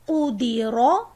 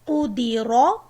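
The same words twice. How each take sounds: Both takes have the same delivery.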